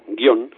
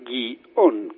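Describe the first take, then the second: First: The word is said in one syllable, guión. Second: The word is said in two syllables, gu-i-ón. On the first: "Si se pronuncia monosílabo" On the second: "si se pronunciaba guión como bisílabo"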